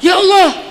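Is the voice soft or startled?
startled. It is said abruptly, as if startled. The speaker is surprised rather than calling to God. The speaker calls it wrong. "itu mah kaget kali ya"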